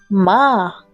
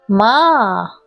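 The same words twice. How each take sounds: First: The pitch stays high and level. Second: The pitch falls low and then rises. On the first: It means mother. "que es alto y nivelado, como una nota musical" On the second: It means horse. "un tono descendente ascendente... que baja y sube el sonido"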